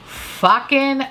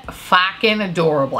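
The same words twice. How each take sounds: First: Fucking stretched out and pushed up; stressed fucking. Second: Said in the usual way. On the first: Shown as a demonstration. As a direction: lean hard on fucking, drawn out. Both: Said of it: "I have to say it like that".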